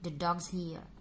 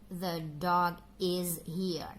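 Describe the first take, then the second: First: The word is is reduced to a buzz. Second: The word is is said in full. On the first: The speaker calls it right. "biasanya menggunakan weak formnya" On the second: The speaker calls it wrong. "Jarang sekali mengucapkan dengan the dog is here"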